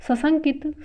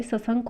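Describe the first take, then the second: First: सशंकित with "it" ending, pitched higher; wrong form. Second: सशंक ending on "nk"; correct form. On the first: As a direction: say सशंकित as sa-shan-KIT. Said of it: "नहीं होता है". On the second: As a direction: say सशंक as sa-SHANK. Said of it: "होता है". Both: Shown as a demonstration.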